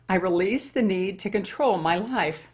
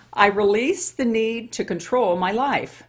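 First: Said in the usual way. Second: Slow, louder reading of the card, every word weighed; slow emphatic affirmation. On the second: Shown as a demonstration. Reading her daily card, she proclaims it slowly. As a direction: proclaim it like a vow. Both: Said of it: "Let's see what God has in store".

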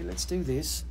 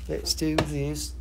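First: Said in the usual way. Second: Slow and drawn out. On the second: Shown as a demonstration. Seller announcing the next crystal to viewers, slow and drawn out. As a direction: stretch each word slowly, leaning on do. Repeats the line a second time.

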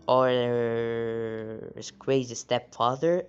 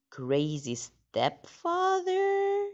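First: Slow, drawn-out Crazy Stepfather at the usual pitch; a slow, teasing reading of Crazy Stepfather; drawn-out title read. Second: Very high, slow drawn-out squeal of the title; a squeaky, slow, overdone reading of Crazy Stepfather; dramatic title read. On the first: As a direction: stretch out Crazy Stepfather slowly for effect. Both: Shown as a demonstration.

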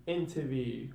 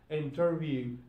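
First: "interview" said as "intuh-view"; R dropped. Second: "interview" with the R in "ter"; R pronounced. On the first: Teacher showing learners Cockney British, "interview" without R. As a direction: leave the R out of "interview". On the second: Teacher giving the normal English form, "interview" with its R. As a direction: sound the R in "interview". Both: Shown as a demonstration. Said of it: "same rule will be applied".

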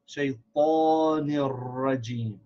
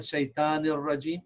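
First: "Shaitanir rajim" with a heavy, long "taw"; slow "Shaitanir rajim", emphatic t and rounded held vowel; correct heavy Taa. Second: "shaitanir rajim" with a thin, light "ta"; "shaitanir rajim" with short, unemphatic "tan"; wrong light ta. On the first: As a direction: stretch the full, dark "tan" in "Shaitanir rajim". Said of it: "It's ta". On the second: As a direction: say "shaitanir rajim" quickly with a plain English-like t. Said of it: "This is not shaitanir rajim". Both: Shown as a demonstration.

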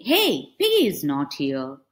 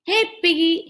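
First: Said in the usual way. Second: Louder, higher call for a friend. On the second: Acted. Elephant calling for Piggy, loud and high. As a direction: call out across the field.

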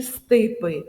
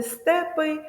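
First: «стипи» with a full, distinct и in the first syllable; clear и. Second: «степи» with a full, distinct е in the first syllable; clear е. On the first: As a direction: overpronounce the first vowel of «стипи» as и. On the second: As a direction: overpronounce the first vowel of «степи» as е. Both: Shown as a demonstration. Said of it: "І ми сумніваємось".

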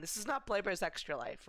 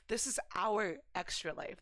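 First: Said in the usual way. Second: Our leaned on and falling; stress on our. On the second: Shown as a demonstration. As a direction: press the word our.

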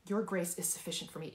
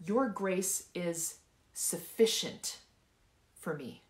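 First: Said in the usual way. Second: Slow, with "sufficient" punched on its middle syllable; drawn-out, emphatic "sufficient"; stress on SUFFICIENT. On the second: Shown as a demonstration. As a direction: hit "sufficient" hard, pause, then drop for the end. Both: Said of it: "I want you to emphasize each word".

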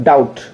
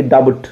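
First: "डाउट" said as dout, with no b; silent B. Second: "डाउट" mispronounced as da-but, b sounded; wrongly sounded B. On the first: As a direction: drop the b in "डाउट", going straight to t. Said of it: "क्या पढ़ते हैं अपन". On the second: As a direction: put an audible b before the t in "डाउट". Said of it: "ना कि डाउट". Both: Shown as a demonstration.

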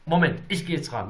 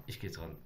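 First: Said in the usual way. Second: Dropping to a near hush before answering; hushed, almost under the breath. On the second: Real, not acted. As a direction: go very soft as you pick up the phone. Hushing as he picks up.

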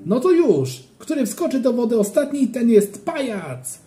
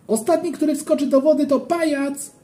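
First: High, loud dare, the last words slowed; playful shout. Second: Playful shout. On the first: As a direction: yell the challenge again up high. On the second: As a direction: yell the challenge up high across the pool. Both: A narrator's reading. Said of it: "krzyknąłem".

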